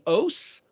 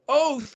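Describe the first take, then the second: First: The word ends with an s sound. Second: The word ends with a th sound. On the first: "the Tav is pronounced as an S" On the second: "or a T H"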